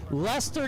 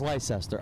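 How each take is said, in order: First: "Leicester" said as LES-ter, two syllables; right pronunciation. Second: "Leicester" said as LIE-ses-ter, three syllables; wrong pronunciation. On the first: Shown as a demonstration. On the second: Retold or imitated. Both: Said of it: "I thought it was Leicester".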